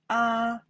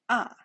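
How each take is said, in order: First: The pitch stays high and level. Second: The pitch falls sharply from high. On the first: "The first time" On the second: "The fourth time"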